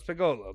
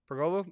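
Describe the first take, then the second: First: No R sound follows the first vowel. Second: An R sound is added after the first vowel. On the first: The speaker calls it right. "That's what it was" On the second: The speaker calls it wrong. "I was adding an R in there"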